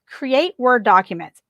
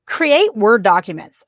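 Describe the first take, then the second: First: Slow, with the stress landing on Word in create Word documents; emphatic repeat. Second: Slow, every word of create Word documents leaned on; emphatic instruction. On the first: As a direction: repeat it slowly and hit Word. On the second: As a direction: spell out create Word documents slowly, each word weighted. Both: Shown as a demonstration. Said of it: "I cannot emphasize enough".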